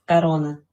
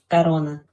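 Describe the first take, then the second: No difference in how they are said.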